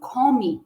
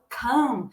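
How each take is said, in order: First: The vowel is not an 'a' sound. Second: The vowel sounds like an 'a' sound. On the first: The speaker calls it wrong. "eu não pronuncio come" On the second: The speaker calls it right. "Eu falo come"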